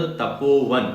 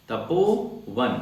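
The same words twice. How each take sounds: First: Said in the usual way. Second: Tapovan stretched out slowly, syllable by syllable; slow demo. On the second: Shown as a demonstration. Teacher spelling out Tapovan slowly for students. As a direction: draw out Tapovan for the class.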